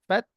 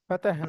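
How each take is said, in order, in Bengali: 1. t ও h একসাথে যুক্ত, মাঝে কোনো স্বরধ্বনি নেই। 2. t ও h-এর মাঝে একটি অতিরিক্ত স্বরধ্বনি ঢোকানো হয়।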